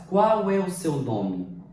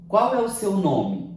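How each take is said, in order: First: Qual é o seu nome? said slowly, stress on qual; slow classroom question on Qual é o seu nome?; slow question intonation. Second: Qual é o seu nome? asked with a falling question tune; question intonation. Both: Shown as a demonstration. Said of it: "A entoação, a forma como eu falo".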